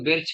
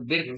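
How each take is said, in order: First: The word ends with a 'ch' sound. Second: The word ends with a 'k' sound. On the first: "कोई बिर्च कहता है" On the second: "कोई बिर्क कहता है"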